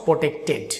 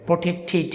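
First: Protected slowly, ending in ted; the rejected protected with a full ted; protected drawn out with a ted ending; wrong pronunciation. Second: Protected ending in tid; protected with a short tid; correct pronunciation. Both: Shown as a demonstration. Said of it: "not protected".

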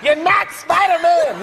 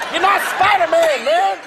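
First: High, slow shout spelling out "not Spider-Man"; dad yelling at his son, slower; slower angry yell. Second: High shouted scolding, punching NOT; dad yelling at his son; angry yell. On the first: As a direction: drag it out to make him listen. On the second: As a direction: shout it at the kid on the floor. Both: Retold or imitated. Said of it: "I yelled, I got so mad".

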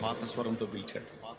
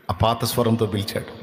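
First: "పాత స్వరంతో పిలిచాడు." said again much softer, almost breathed; hushed repeat. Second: Said in the usual way. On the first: Shown as a demonstration. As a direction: repeat it in a near whisper.

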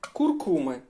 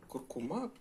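First: Куркуми said the common wrong way, stress on КУР; the usual wrong stress on Куркуми. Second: Куркума stressed on the middle syllable КУМ; right stress. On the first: Teacher showing viewers the wrong stress on Куркуми. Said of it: "Звикли неправильно казати". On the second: Teacher showing viewers the right stress on Куркума. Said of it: "Наголос на куркума". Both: Shown as a demonstration.

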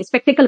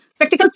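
First: स्पेक्टिकल with no s on the end; singular word form. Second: स्पेक्टिकल्स with a plural s on the end; wrong word form. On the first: Teacher corrects her class to the singular, स्पेक्टिकल without final s. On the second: Teacher rejects the plural form for her class, स्पेक्टिकल्स with final s. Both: Shown as a demonstration. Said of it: "स्पेक्टिकल कहा मैंने".

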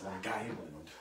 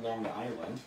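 First: Local Long Island "Lawn Guyland", g run into Island; Long Island accent, words fused on a hard g. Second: "Long Island" as two separate words, no hard g; standard pronunciation. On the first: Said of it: "That's the Long Islander way of saying it". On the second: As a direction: say "Long Island" cleanly, without the local accent. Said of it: "Like people say, it's Long Island". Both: Shown as a demonstration.

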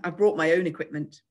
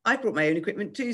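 First: Superior boast, firm falling end; a touch of posh self-importance; scornful. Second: Cheeky chime-in with a grin; slightly higher, rising playful echo; grinning. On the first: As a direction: show off with mild disdain. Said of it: "said Giles scornfully". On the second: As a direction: join in good-humouredly, smile in the voice. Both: A narrator's reading.

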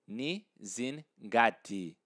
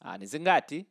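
First: "Ni zingati" slowly, broken into pieces; slow, separated "ni, zin, gati"; slow model. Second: "ni zingati" run together in one quick burst; quick, joined-up "ni zingati" with no gaps; said quickly. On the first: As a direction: spell out "Ni zingati" for a learner, part by part. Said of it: "I like to say it fast". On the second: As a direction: rattle off "ni zingati" like a fast native speaker. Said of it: "So just say it quickly". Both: Shown as a demonstration.

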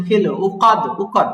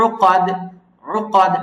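First: উকাদ with a plain glottal hamza; উকাদ, wrong hamza; hamza mistake. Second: উকাদ with a softly pressed throat ain; উকাদ, correct soft ain. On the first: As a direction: swap the ain in উকাদ for hamza. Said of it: "উকাদ না". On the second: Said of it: "আইনটা হলো চাপ দিবেন, but softly". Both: Shown as a demonstration.

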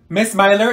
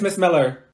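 First: Miller said MY-ler; mispronounced Miller. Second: Said in the usual way. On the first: Acted. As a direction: say Miller with an "eye" sound, MY-ler. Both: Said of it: "My name is Miss Miller".

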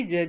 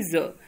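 First: ज said with a hard j as in jam; plain ja sound. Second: ज said as a buzzing z, za not ja; nukta za sound. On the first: Teacher showing students the plain ज sound. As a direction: say ज as a plain ja, no nukta. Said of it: "एक यहाँ पे ज दिया हुआ है". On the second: Teacher showing students the nukta ज as za. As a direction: say ज with the nukta, a clear za. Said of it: "इस ज के नीचे नुक्ता लगा हुआ है". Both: Shown as a demonstration.

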